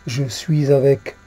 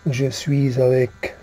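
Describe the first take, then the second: No difference in how they are said.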